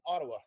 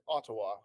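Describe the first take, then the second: First: The T's are soft, Canadian style. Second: The T's are crisp, UK style.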